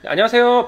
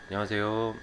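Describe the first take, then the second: First: It is said bright and high-pitched. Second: It is said flat and low-pitched.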